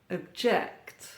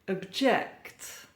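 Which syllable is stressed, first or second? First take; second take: second; second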